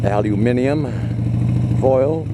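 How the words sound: Said the British way, with five syllables.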